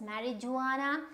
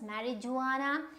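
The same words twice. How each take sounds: First: The j is said as a j sound. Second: The j is said as a j sound.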